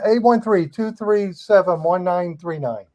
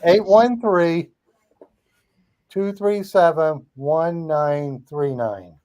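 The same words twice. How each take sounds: First: The number is said at normal speed. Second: The number is said slowly.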